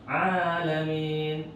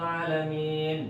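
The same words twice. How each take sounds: First: The first vowel is held long. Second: The first vowel is short. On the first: The speaker calls it right. "Harus panjang" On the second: The speaker calls it wrong. "Nggak boleh ... juga salah"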